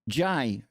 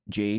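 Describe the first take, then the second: First: The letter name ends in an 'eye' vowel. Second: The letter name ends in an 'ay' vowel. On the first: "Or do you say Jai? J A I" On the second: "Do you say J or the letter J"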